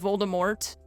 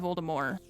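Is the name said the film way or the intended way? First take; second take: film; intended. First: The name is said the way the films say it. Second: The name is said the author's intended way. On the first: This is how others commonly said it. The speaker calls it wrong. "they said Voldemort in the movies" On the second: This is how the creator meant it. The speaker calls it right. "it's supposed to be Voldemort"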